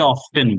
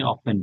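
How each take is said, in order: First: Often said OFF-ten, the t sounded; often with a clear t, as many wrongly say. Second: Often said OFF-en, the t silent; often with no t sound, the right way; often without the t. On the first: Teacher shows students the common often with t. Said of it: "অথবা অনেকে often বলে". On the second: Teacher corrects students to say often without t. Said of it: "but আপনি often বলেন". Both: Shown as a demonstration.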